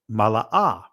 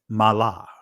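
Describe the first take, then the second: First: The final 'ah' syllable is clearly pronounced. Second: The final 'ah' syllable is dropped.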